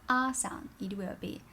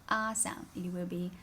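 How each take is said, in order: No difference in how they are said.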